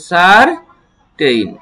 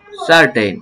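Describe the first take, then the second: First: "সার ten" in two pieces; broken into syllables. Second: Said in the usual way. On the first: Shown as a demonstration. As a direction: separate "সার" from "ten" with a clear gap. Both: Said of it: "syllable অনুযায়ী ভেঙে ভেঙে".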